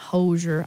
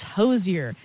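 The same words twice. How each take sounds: First: "Hozier" as HOE-zher; wrong pronunciation. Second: "Hozier" as HOE-zee-er; correct pronunciation. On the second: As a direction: say "Hozier" with z plus yer. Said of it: "It is Hozier, not Hozier". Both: Shown as a demonstration.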